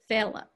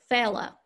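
First: The word ends in a weak 'uh' vowel. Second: The word ends in a weak 'uh' vowel.

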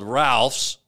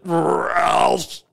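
First: The word is said in a plain, normal voice. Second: The word is drawn out like a retching sound. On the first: "it's a place called Ralph's" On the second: "or as I like to pronounce it"

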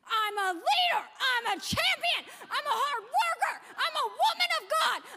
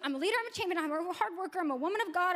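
First: It is said forcefully, with strong conviction. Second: It is said casually, without much feeling.

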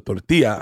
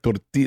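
First: The ending is pronounced with an extra flourish. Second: The ending is pronounced plainly, without flourish. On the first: The speaker calls it wrong. "put the extra spin on it at the end" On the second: The speaker calls it right. "That's how we say it"

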